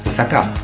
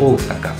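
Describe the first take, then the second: First: All the vowels are kept short. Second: One vowel is held long. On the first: The speaker calls it wrong. "C'est pas Osaka" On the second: The speaker calls it right. "c'est Osaka"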